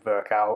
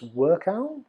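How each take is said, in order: First: The name begins with a V sound. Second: The name begins with a W sound. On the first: "I'm going to keep saying Virchow" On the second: "So Visa W is Workow?"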